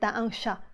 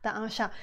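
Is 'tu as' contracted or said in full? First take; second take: contracted; contracted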